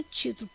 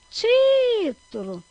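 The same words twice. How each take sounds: First: Said in the usual way. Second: Título called out, TÍ very long, high and loud; chamando a palavra. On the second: Shown as a demonstration. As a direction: call "título" holding the stressed TÍ. (título chamado, com o TÍ longo e forte) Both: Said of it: "Quando a gente chama".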